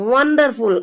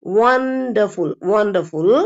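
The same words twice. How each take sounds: First: வண்டர்ஃபுல் quickly, flat W and r sounded; unrounded W. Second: வண்டர்ஃபுல் drawn out with rounded W, no r. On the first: Teacher showing learners what to avoid, flat W. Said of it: "அப்படியெல்லாம் சொல்லக்கூடாது". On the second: Teacher modelling the word for learners, rounded W. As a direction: round the lips and stretch வண்டர்ஃபுல், dropping the r. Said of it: "வாய் round ஆயிரணும்". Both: Shown as a demonstration.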